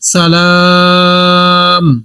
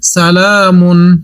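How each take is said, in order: First: The word stops short without the final ending. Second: The word ends with its full final syllable.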